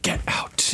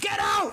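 First: It is said in a more restrained way. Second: It is said in a frantic, freaked-out way.

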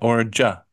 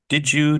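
First: Both words are merged into a single 'ja' sound. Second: Both words are pronounced fully and separately. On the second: "you find yourself using did you"

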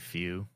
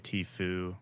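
First: The name begins with an F sound. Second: The name begins with a T sound. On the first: This is how the speaker says it. "I say few" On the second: This is how some other people say it. "Some people say Tfue"

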